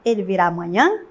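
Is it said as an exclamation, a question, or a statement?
question. It is said with questioning intonation. It asks whether he will come tomorrow. "se fosse uma interrogativa"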